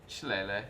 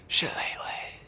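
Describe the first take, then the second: First: It is said in a plain normal voice. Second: It is said in a soft, close whisper.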